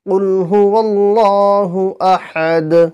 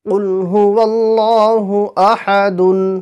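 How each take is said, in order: First: The last word ends in a bounced d. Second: The last word ends in a full dun. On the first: The reader stops at this word. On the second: The reading continues without a stop.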